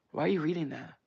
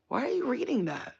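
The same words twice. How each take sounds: First: Said in the usual way. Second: High-pitched, exasperated question; mock incredulous scolding. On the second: Scolding celebrities who read their comments, high mock incredulity. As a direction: pitch it way up in playful disbelief.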